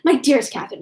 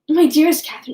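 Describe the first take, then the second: First: It is said at a faster pace. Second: It is said at a slower pace.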